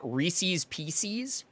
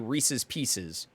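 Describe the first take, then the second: First: Reese's is said with an altered, playful pronunciation. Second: Reese's is said with its ordinary standard pronunciation. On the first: "mispronounce it like everyone did in the nineties" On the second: "or do you say Reese's Pieces?"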